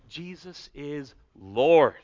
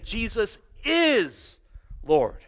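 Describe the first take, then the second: First: The stress falls on the word Lord. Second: The stress falls on the word is. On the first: He is ruler and sovereign over all. "if we put it on that last word" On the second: It is certainly true, not merely possible. "If we put it on the is"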